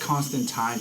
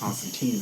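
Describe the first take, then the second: First: The name has the British pronunciation. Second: The name has the American pronunciation. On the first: "Constantine technically is the British pronunciation" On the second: "because of us Americans"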